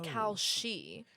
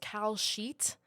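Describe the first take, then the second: First: The second syllable ends without a t sound. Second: The second syllable ends with a t sound. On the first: The speaker calls it right. "but it's Cal She" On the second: The speaker calls it wrong. "I used to think it was Cal Sheet, like a like a betting sheet"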